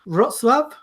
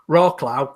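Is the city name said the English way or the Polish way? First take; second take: Polish; English. First: It is said with a Polish-style pronunciation. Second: It is said with an English-style pronunciation. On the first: The speaker calls it right. "I think which is pronounced roughly" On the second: The speaker calls it wrong. "for all all us idiots would be"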